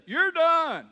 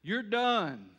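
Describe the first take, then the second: First: Higher, louder mama saying "You're done" with stress on You're; shrill-free but sharply raised mother's final word; Mama's voice. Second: Lightly voiced stern father, loud and final "You're done"; a hint of Daddy. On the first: Retold or imitated. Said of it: "There's a time when Mama says". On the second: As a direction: say it like Daddy closing the matter. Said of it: "There's a time when Daddy says".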